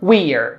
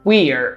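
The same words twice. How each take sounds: First: Merged into one short syllable, we're. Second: Merged into one short syllable, we're.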